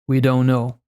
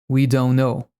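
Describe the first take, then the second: No difference in how they are said.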